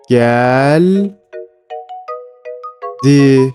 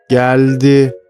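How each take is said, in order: First: The word is read slowly, syllable by syllable. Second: The word is read quickly as one unit.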